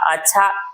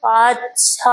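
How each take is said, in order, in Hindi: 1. यह शब्द सामान्य, सपाट ढंग से बोला गया है। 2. यह शब्द सोच-विचार वाले ढंग से बोला गया है। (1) "नॉर्मल है तो कहेगा अच्छा मतलब ठीक-ठाक है" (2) "कोई सोचेगा तो कहेगा अच्छा"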